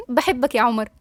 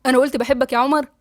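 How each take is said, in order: First: Said in the usual way. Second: "بحبك يا عمر" lifted into a rising question; rising disbelieving echo on "بحبك يا عمر". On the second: Acted. He echoes her answer as question.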